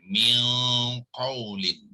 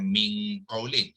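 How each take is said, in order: First: The nasal hum is heavy and raised, deep-sounding. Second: The nasal hum is light and thin, not raised. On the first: The speaker calls it right. "itu meninggikan miang qaulin" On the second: The speaker calls it wrong. "jangan ming qaulin"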